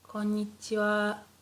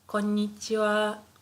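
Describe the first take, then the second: No difference in how they are said.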